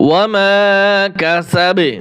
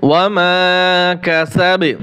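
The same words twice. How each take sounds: No difference in how they are said.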